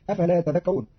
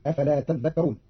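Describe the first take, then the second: First: Said in the usual way. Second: تذكرون with a long, doubled "dh"; doubled dhal. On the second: Shown as a demonstration. Teacher showing Qalun's reading, تذكرون with doubled dhal. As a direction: hold the dhal in تذكرون, "tadhdhakkaroon". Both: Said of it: "بتشديد الذال".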